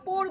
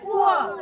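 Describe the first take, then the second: First: The vowel is a plain 'oh'. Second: The vowel glides from 'oo' to 'uh'. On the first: The speaker calls it wrong. "পোর বলবে না" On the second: The speaker calls it right. "কি বলবে? পুয়ার।"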